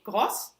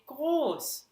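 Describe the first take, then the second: First: The vowel is said short. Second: The vowel is said long. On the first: The speaker calls it wrong. "you don't say groß" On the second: The speaker calls it right. "you say groß. The vowel is long"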